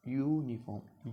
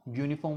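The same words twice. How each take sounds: First: यूनिफॉर्म slowly, with the opening यू held long; drawn-out YU. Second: Said in the usual way. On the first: Shown as a demonstration. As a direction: stretch यू before finishing यूनिफॉर्म. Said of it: "pronounce करते हैं ना यू को". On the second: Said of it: "में pronounce करते हैं".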